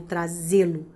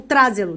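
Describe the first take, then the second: First: "trazê-lo" stressed on the middle syllable, tra-ZÊ-lo; correcting to "trazê-lo" as tra-ZÊ-lo, lower in pitch. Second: "trazê-lo" stressed on the first syllable, TRA-ze-lo; wrong first-syllable stress. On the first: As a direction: lean on the ZÊ of "trazê-lo". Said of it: "não, vou trazê-lo". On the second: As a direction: punch the TRA of "trazê-lo", letting the rest drop. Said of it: "Qual é a sílaba tônica?". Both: Shown as a demonstration.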